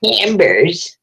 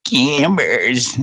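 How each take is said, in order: First: High, drawn-out brand name call; old lady ad voice. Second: Drawn-out brand name with a rise; old lady ad voice. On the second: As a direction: lightly echo the old lady's ad. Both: Retold or imitated. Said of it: "Camber's commercials".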